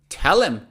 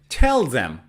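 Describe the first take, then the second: First: The word 'them' is reduced to 'em'. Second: The word 'them' is said in full. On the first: "you can say tell him" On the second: "instead of tell them"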